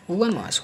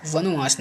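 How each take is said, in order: First: वनवास as "van-vaas", higher pitch; correct, no extra O. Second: वनवास as "vano-vaas"; wrong extra O. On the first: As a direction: run N straight into V in वनवास. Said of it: "वनवास होता है". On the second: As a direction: put an O or U between N and V in वनवास. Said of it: "वनवास नहीं होता है". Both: Shown as a demonstration.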